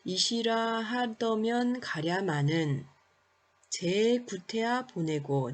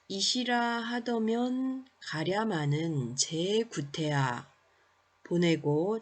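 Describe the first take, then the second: First: There is a pause after 가랴마는. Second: There is a pause after 제구태야. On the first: "가랴마는에서 의미 구분을 하고" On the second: "이렇게 제구태야 다음 의미상 끊어읽기를 해볼 때"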